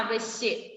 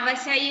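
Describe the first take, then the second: First: The word ends in a 'shya' cluster sound. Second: The word ends in an 'ai' vowel sound. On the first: The speaker calls it right. "നമുക്ക് വേണ്ടത് അവശ്യ" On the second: The speaker calls it wrong. "ഇത് വായിക്കല് അവശൈ എന്നാണ്"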